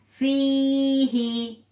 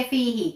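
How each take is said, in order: First: फी ही with the ई in फी slowly held for two seconds; फी ही, the long ई of फी held for two counts; two-second madd stretch. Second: फी ही said fast with a short, clipped vowel; फी ही quick, with no stretch on the या; clipped wrong reading. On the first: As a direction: draw out फी long and even, then ही. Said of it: "या को two seconds के लिए stretch". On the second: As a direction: rush फी ही as the wrong example. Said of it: "ऐसे नहीं पढ़ेंगे". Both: Shown as a demonstration.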